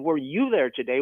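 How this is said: The stress is on "you".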